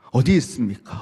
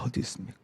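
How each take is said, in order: First: Said in the usual way. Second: Whispered, low-breath question; hushed echo. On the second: Acted. Isaac asking his father where the lamb is, hushed. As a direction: let the question fade into a whisper.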